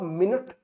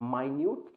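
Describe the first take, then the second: First: It begins with 'min' and sounds like 'minnit'. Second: It begins with 'my' and sounds like 'my-nyoot'. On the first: The speaker calls it wrong. "इसको आप मिनट नहीं pronounce करोगे" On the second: The speaker calls it right. "इसको आप pronounce करोगे माइन्यूट"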